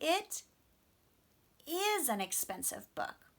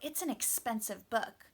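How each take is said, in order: First: The word 'is' is stressed. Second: The word 'is' is not stressed.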